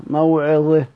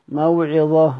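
No difference in how they are said.

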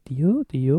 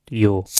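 First: The pitch of the voice goes up. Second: The pitch of the voice goes down. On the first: The speaker calls it wrong. "weil ich habe jetzt die Variante genommen, wo ich sage Dio" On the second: The speaker calls it right. "das andere Dio, also da, wo es mit der Stimme nach unten geht"

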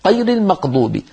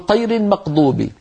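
The two takes are said the same way.

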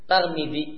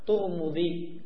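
First: The first syllable has a, the second has i. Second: The first and second syllables have a u vowel. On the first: "taknya di fathah namun mimnya dikasrah" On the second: "Boleh juga dengan dua-duanya di dhamma"

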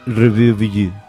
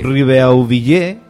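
First: The stress falls on the penultimate syllable. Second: The stress falls on the final syllable. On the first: The speaker calls it right. "Ay, sí, perfecto" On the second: The speaker calls it wrong. "No. A ver, el 80% de las palabras castellanas son llanas. Entonces no acentúes porque ellos acentúen todo"

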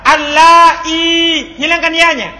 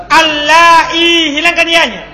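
No difference in how they are said.

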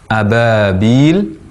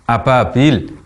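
First: The consonant sounds like a clear b. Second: The consonant sounds like a p. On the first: The speaker calls it right. "Yang benar" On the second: The speaker calls it wrong. "mirip dengan P atau menjadi huruf P"

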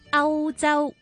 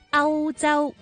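The two takes are said the same way.

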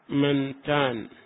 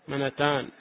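First: The n has no vowel before the t. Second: The n carries an a vowel before the t. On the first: "تسكن نون من فيقال منتان" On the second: "ويجوز فتحها وهي لغة قليلة"

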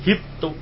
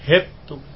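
First: The first vowel is said plainly. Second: The first vowel leans toward an e sound.

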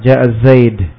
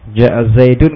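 First: The name stops sharply on the final consonant. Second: The name ends with the full 'un' ending.

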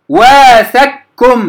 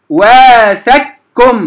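The two takes are said the same way.

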